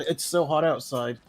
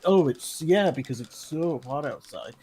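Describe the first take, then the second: First: Said in the usual way. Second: Dripping sarcasm, not meant; sarcastic. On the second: Shown as a demonstration. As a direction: say it like you hate the heat. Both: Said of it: "obviously that's sarcasm".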